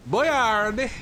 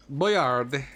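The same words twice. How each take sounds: First: Put-on Boyard squeaked much higher and louder, rising at the end; squeaky Boyard. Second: Put-on Boyard read like French, dropping the final d-sound ending; French-ish reading. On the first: Shown as a demonstration. Streamer repeats Boyard in a squeaky high voice. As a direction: pop Boyard up high like a cartoon. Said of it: "I'm just saying Boyard". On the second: Streamer says Boyard in a French-sounding way. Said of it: "What accent did I read that with?".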